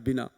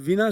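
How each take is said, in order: First: The word begins with a b sound. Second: The word begins with a v sound. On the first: This is the later everyday form. "ओष्ठ उच्चारण वाला बन जाता है बिना" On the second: This is the original classical form. "ये विना शब्द तत्सम है जिसमें व है"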